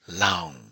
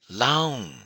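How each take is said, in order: First: The vowel is drawn out long. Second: The syllable is said on a high pitch. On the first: "long vowel" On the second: "high tone"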